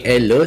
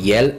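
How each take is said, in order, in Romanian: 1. Începe cu vocala simplă e. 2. Începe cu o semivocală asemănătoare cu y, înainte de e. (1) "Se scrie el" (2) "se citește el, avem diftong"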